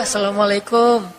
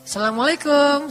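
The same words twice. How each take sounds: First: The greeting sounds pitiful and downcast. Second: The greeting sounds lively and enthusiastic. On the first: The person was sad and pleading before. "melas gitu ya" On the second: The person is now happy and hopeful. "sudah semangat sekarang"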